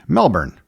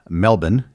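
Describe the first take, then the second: First: It is pronounced the non-local way. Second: It is pronounced the way locals say it.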